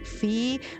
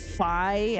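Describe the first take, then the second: First: The vowel sounds like 'ee'. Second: The vowel sounds like 'eye'. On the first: This follows the ancient Greek pronunciation. "if we were going with the ancient Greece pronunciation, it would be Fee" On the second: This is how the game will probably say it. "they're probably gonna say Phi"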